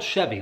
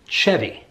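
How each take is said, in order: First: It sounds like the name of the car. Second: It sounds different from the car's name. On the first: "It's spelled Chevy, like the car" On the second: "but I've heard Chevy"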